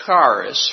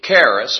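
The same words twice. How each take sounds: First: Charis with a hard K and open AH, KAH-ris; Greek pronunciation. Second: Charis with a hard K and EH, CARE-iss; alternative pronunciation. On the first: Preacher sounding out a Greek word for the congregation, charis as KAH-ris. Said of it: "in the Greek that's pronounced". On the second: Preacher offering another way to say a Greek word, charis as CARE-iss. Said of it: "however you want to look at that". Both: Shown as a demonstration.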